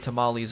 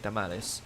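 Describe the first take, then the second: First: It is said with an English accent. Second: It is said with a Spanish accent. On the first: "I don't say tamales anymore" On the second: "I gotta speak the Spanish accent when I say Spanish words"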